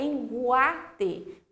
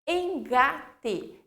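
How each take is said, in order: First: A u sound is heard after the g. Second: The g is followed directly by the a. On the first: The speaker calls it wrong. "Se eu tivesse U, ia ficar enguate" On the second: The speaker calls it right. "Eu não tenho U"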